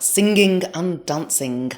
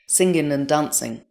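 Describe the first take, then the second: First: The final G sounds are clearly pronounced. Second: The final G sounds are swallowed. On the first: This is how people speak in the northwest. "overemphasising the final G in an almost comical way" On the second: This is how people speak in standard southern English. "it's sort of swallowed in standard southern English"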